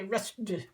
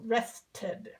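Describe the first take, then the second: First: Rested squashed into one syllable, "ressd"; rested clipped to a single syllable as the wrong way. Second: Rested with a clear extra syllable, "rest-id"; Rested spoken fully as two syllables, the right way; correct two-syllable rested. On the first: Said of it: "You can't say rested, it doesn't work". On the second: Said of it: "the ed is an extra syllable". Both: Shown as a demonstration.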